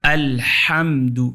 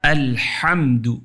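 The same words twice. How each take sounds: Both takes have the same delivery.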